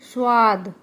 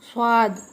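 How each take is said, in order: Both takes have the same delivery.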